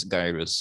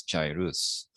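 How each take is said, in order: First: "gyrus" with a hard g as in guy; "gyrus" pronounced GUY-russ. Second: "gyrus" with a soft g like J; "gyrus" opening on a j sound. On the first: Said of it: "some pronounce it as gyrus". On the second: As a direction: say "gyrus" as JAI-rus. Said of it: "Some pronounce it as gyrus". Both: Shown as a demonstration.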